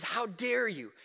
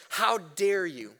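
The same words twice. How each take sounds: First: "dare" pressed hard but softly, almost under the breath; a quiet, stunned reproach to the church; hushed indignant rebuke. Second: "How" stretched out, each word weighed and slow; a slow, measured reproach to the church; slow indignant rebuke. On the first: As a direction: drop the voice and let the shock seep through. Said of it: "he says". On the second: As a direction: drag out "How dare you" like a stern apostle. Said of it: "Paul says". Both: Retold or imitated.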